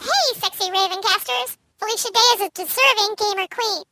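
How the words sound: It is read in a put-on voice.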